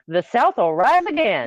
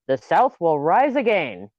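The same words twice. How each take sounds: First: Higher-pitched Southern twang, a little like a country singer; second, fuller stab at a Southern accent. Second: Weak attempt at a Southern accent; slow, half-hearted Southern accent, missing the mark. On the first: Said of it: "had a little Dolly Parton". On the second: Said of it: "in your Southern accent". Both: Shown as a demonstration.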